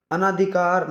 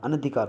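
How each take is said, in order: First: अनाधिकार slowly with long naa; wrong pronunciation. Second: अनधिकार with short na, "a-na-dhikaar"; correct pronunciation. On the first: Teacher shows the mistake, अनाधिकार slow with long naa. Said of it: "नहीं". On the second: Teacher gives the right form, अनधिकार with short na. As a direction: keep the second vowel of अनधिकार short. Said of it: "होता है भाई". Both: Shown as a demonstration.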